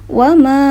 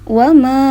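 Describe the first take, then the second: No difference in how they are said.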